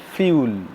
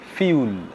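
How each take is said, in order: The two takes are said the same way.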